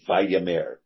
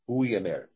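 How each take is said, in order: First: The word begins with a v sound. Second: The word begins with a u vowel sound. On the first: "They wanted to use Vayomer" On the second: "could be easily said Uimer, Uyamer"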